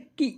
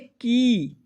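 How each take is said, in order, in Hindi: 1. इस स्वर को कम समय तक खींचा जाता है। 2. इस स्वर को ज़्यादा समय तक खींचा जाता है। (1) "छोटी ई की मात्रा तो इसे पढ़ रहे थे की" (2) "बड़ी ई की मात्रा हमने की में लगाई"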